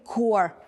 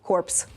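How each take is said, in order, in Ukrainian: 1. Кінцеві p і s не вимовляються. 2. Кінцеві p і s вимовляються. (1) "Правильно вимовляється як Marine Corps" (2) "якщо ти скажеш так, як ти сказав"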